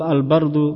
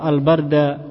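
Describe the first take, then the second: First: The word ends with a 'u' vowel. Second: The word ends with an 'a' vowel. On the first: The word is the subject of asbaha. The speaker calls it right. "dibaca dhamma al bardu" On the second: The word is treated as an object. The speaker calls it wrong. "tidak asbaha al barda"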